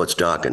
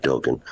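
First: "[name]" with a short open O, DOCK-en; correcting, "[name]" as DOCK-en; correct pronunciation. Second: "[name]" with a long O, DOKE-en; first vowel of "[name]" as in "oak"; wrong pronunciation. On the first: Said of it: "He'd always correct them". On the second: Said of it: "not [name]". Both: Shown as a demonstration.

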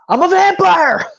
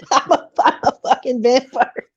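First: Higher, louder excited blurt. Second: Said in the usual way. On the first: Retold or imitated. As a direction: shout the secret out proudly. Nick blurting out his secret.

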